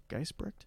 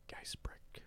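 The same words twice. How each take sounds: First: Geisbrick with a soft, rising question; questioning name attempt. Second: Near-whispered, trying out the name; tentative name attempt. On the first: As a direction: try Geisbrick quietly, lifting the end as if unsure. Second unsure try at surname. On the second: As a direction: sound it out under your breath. Trying out a viewer's surname. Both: Real, not acted.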